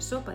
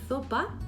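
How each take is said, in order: First: The word begins with a hissing s sound. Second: The word begins with a lisped th sound. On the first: The speaker calls it right. "en lugar de sopa" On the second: The speaker calls it wrong. "sustituye la Z por la S"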